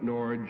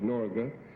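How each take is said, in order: First: The name is said with an anglicized pronunciation. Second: The name is said with a native-sounding pronunciation. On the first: This is how English speakers usually call it. The speaker calls it wrong. "as we call it" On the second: This is the correct original pronunciation. The speaker calls it right. "right pronunciation is"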